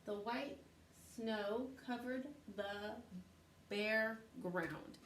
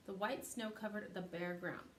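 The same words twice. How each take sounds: First: Slow, word-by-word reading; slow reading aloud. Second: Said in the usual way. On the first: Shown as a demonstration. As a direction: read it out slowly, spaced. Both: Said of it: "it says".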